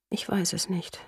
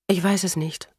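First: Breathy unvoiced whisper, very soft. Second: Said in the usual way. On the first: Kate whispering to Robert mid-kiss, unsure, in a whisper. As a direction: barely breathe the words out.

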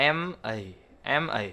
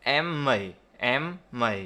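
First: "M A" as two separate letters, "em, ay"; unlinked. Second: "M A" joined as "em-may"; linked sounds. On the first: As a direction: start the A fresh on its vowel. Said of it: "Đọc như vậy là cơ bản". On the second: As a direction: carry the m over so A starts on it. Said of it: "ta đọc nối âm nó sẽ là". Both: Shown as a demonstration.

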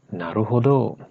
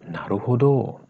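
No difference in how they are said.

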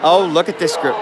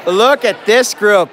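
First: Said in the usual way. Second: Slow, punched "Look at this group"; emphatic hype. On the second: Real, not acted. Host hyping prom couples, emphatic "Look at this group". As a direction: stretch out each word of "Look at this group".

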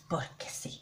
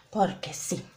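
First: Whispered, much softer; whispered aside. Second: Said in the usual way. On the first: Shown as a demonstration. Joking to viewers about using up powder, whispered. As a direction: drop to a breathy aside. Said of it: "plain take before". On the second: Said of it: "repeats it whispered".

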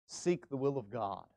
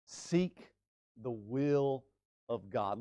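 First: Low and soft, Seek leading; announced. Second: Seek, pause, the will, pause, of God; word by word. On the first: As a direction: state the sign quietly and slowly. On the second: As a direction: set each word apart with pauses. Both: Shown as a demonstration. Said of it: "gives us the third road sign".

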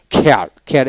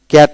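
First: "খেয়ার" with a puff of air after the K; aspirated K. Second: Said in the usual way. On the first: Shown as a demonstration. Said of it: "এইভাবে উচ্চারণ করে পড়বেন". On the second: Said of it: "কেয়ার থেকে খেয়ার".

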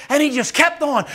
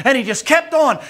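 The two takes are said the same way.

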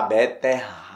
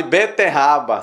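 First: "beterraba" drawn out and lower; "beterraba" said low, syllables stretched; relished pronunciation. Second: Said in the usual way. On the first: Shown as a demonstration. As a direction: linger over "beterraba", pausing before the end. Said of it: "Faça um teste com você mesmo".

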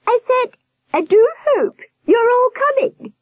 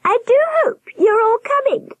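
First: Insistent warble. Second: Very high, warbled falsetto of a giant nurse; warbling. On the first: Nurse repeating herself to blank-faced children, insistent high warble. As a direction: repeat it pointedly in a high-pitched, louder warble. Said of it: "she repeated". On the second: Nurse greeting the staring children, high warble. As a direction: trill it out high and slightly louder, warbling. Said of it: "she warbled". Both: A narrator's reading.

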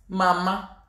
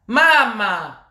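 First: Said in the usual way. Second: Loud, drawn-out call. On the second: Real, not acted. Ranter calling on a mama, loud drawn-out appeal. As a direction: stretch it out to get her attention. Calls mama louder on repeat.

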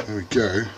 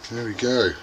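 The two takes are said the same way.

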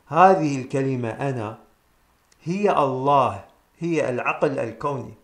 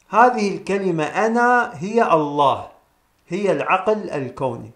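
First: Lower, slower, each word weighed; slow emphatic repeat. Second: Said in the usual way. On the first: Shown as a demonstration. Teacher repeating the line for listeners, slow and emphatic. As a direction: repeat it slowly so it sinks in. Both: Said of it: "نكرر ونقول".

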